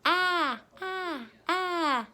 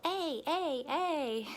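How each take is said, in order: First: "Ah" as the short vowel in apple; short-vowel "Ah", chanted like a class; short A sound. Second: "A" like the letter's own name, ay; long-vowel "A", repeated like a class; long A sound. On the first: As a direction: call out "Ah" three times, high and separate. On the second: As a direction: chant "A" three times as a long vowel, high. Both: Shown as a demonstration. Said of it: "A can actually make two sounds".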